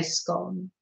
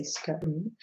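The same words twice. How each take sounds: First: "scone" with a short o, rhyming with gone; short, northern English vowel in "scone". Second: "scone" with a long o, rhyming with cone; drawn-out oh vowel in "scone", as in stone. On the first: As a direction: say "scone" like "skon". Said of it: "you can hear it in me sometimes". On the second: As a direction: say "scone" like "skohn". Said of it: "I wouldn't say scone". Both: Shown as a demonstration.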